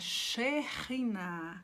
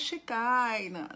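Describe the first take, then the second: First: The middle consonant is a throaty h sound. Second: The middle consonant is a hard k sound. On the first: The speaker calls it right. "é Sheriná" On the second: The speaker calls it wrong. "não é Shekinah"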